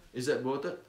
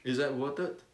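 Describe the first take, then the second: No difference in how they are said.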